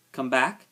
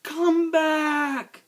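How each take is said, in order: First: Mildly scornful questioning repeat; incredulous echo. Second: Long, high, desperate shout. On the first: Rabbit scoffing to himself at the shout, incredulous. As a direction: echo it as a doubting question, unshouted. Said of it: "Of all the ridiculous things to shout". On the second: Girl to rabbit falling into the sea, shouted. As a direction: cry out loudly to someone far away. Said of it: "she shouted". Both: A narrator's reading.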